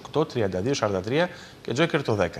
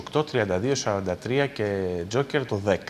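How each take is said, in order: Both takes have the same delivery.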